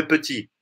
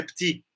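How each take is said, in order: First: "petit" in two syllables, puh-TI; petit with sounded E. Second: "petit" as one syllable, PTI; petit with dropped E. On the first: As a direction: put a schwa between P and T in "petit". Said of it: "e não é petit". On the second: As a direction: swallow the E in "petit". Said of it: "mostrar que é petit". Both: Shown as a demonstration.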